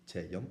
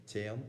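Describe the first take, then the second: First: Tean stretched into two syllables; two-syllable form. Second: Tean said in one short syllable; one-syllable form. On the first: Teacher giving the older two-syllable way of saying it. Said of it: "pronounced with two syllables". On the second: Teacher giving today's common way of saying it. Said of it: "how most people would say it today". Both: Shown as a demonstration.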